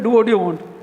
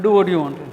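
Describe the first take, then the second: First: It sounds relaxed and easygoing. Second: It sounds cold and resentful. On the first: The speaker is fine with the choice. "You tell a friend, do what you want. Hey, that's fine" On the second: There is no more common ground. "Meaning there's no more common ground now"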